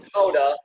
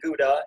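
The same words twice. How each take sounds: First: It does not start like the word good. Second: It starts like the English word good. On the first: The speaker calls it right. "We know it's Gouda" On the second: The speaker calls it wrong. "that's not how you say it"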